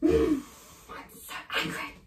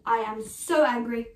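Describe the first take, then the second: First: Sigh, then a near-whispered grumble; teacher demoing anger at a missed show, sighing and muttered; sulky anger. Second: Firm "I am so angry" spoken out at normal voice; a plain-voiced demo of anger, stressing "so"; stated anger. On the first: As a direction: mutter the anger under your breath. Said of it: "Okay, ready?". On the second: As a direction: say "so angry" openly and firmly. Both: Shown as a demonstration.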